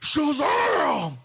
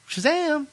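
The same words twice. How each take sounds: First: It is said powerfully, like a magic word. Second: It is said casually, like calling a name.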